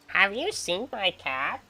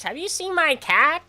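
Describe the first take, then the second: First: Very slow, drawn-out old-man impression in a changed voice; old man's voice. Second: Much higher and slower, loud old-man impression; old man's voice. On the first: Doing the old neighbor asking about his cat, very slow. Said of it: "I swear that's the way he talks". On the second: Retelling the old neighbor asking about his cat, high and slow. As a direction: ask it like the doddering old neighbor. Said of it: "this is the way he talks".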